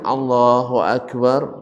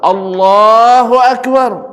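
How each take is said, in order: First: It is said softly and weakly. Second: It is said loudly and strongly. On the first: The speaker is sick. "suaranya lemah" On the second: The speaker is healthy. "Mana yang lebih keras? Yang kedua"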